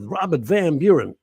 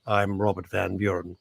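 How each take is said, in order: First: Loud, high booming introduction of the name; a loud, showy presenter's announcement; grand announcer name. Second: A lightly voiced, lower, mild-mannered clockmaker; a hint of a meek clockmaker; mild mock clockmaker. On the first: Pretend. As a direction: boom out the name like a grand herald. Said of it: "He doesn't talk like that at all". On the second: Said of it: "He probably goes".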